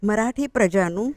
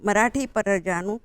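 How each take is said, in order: No difference in how they are said.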